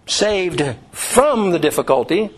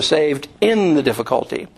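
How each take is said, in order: First: Slow, with "from" stretched and hit hard; deliberate emphasis on "from"; stress on from. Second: "in" picked out against the other words; deliberate emphasis on "in"; stress on in. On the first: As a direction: punch the word "from" for contrast. Contrasts from with in. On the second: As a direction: lean on the word "in" for contrast. Contrasts in with from. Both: Shown as a demonstration.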